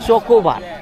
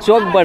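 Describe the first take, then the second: First: It is said as three syllables, cho-ko-bar. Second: It is said as two syllables, chok-bar. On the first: The speaker calls it right. "এটাকে বলে চকোবার" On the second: The speaker calls it wrong. "ওইটা চকবার না"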